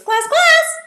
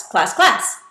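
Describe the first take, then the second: First: Very high, loud double call; high-pitched. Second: "class, class" as a quick loud double; two quick beats of "class", the second stronger; said twice. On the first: Teacher calling the class twice for giggles, high-pitched. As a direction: squeal both words way up high. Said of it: "say it in a high-pitched voice". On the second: Teacher calling the class twice, "class, class" in a quick loud double. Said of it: "say it twice". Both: Shown as a demonstration.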